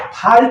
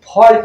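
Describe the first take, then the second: First: The vowel is an open unrounded 'ah' sound. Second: The vowel is a rounded 'aw' sound. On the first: The speaker calls it wrong. "इसको फाल्ट नहीं पढ़ेंगे" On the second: The speaker calls it right. "हमें कोशिश करना चाहिए फॉल्ट बोलने की"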